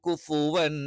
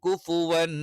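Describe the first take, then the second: No difference in how they are said.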